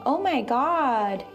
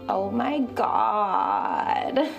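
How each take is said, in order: First: The voice is normal and clear. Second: The voice is low and creaky.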